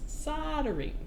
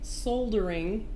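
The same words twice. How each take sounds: First: The L sound is left silent. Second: The L sound is clearly pronounced. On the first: The speaker calls it right. "here in the U S it's soldering" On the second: The speaker calls it wrong. "the word is not soldering"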